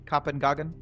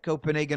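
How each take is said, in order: First: It is said in a European commentator style. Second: It is said in a plain American style.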